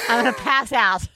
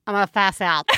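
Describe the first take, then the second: First: Panicked laughing shout; half-laughing panic at ants; phobic panic. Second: Said in the usual way. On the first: Real, not acted.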